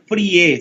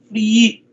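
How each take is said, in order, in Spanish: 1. La vocal i es corta. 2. La vocal i es larga. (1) "mi apellido no se pronuncia Frie" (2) "sino Free, una doble I"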